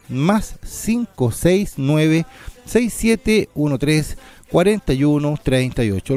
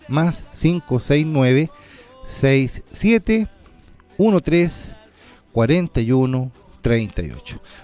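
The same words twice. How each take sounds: First: The number is read at normal speed. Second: The number is read more slowly.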